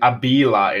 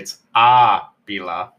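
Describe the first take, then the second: First: The stress is on the second syllable. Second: The stress is on the first syllable. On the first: The speaker calls it wrong. "you were saying Abila" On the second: The speaker calls it right. "The emphasis comes on a different syllable"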